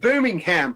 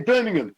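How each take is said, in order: First: It is said with an American accent. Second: It is said with a British accent. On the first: The speaker calls it wrong. "I just said it like an American then" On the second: The speaker calls it right. "We say Birmingham"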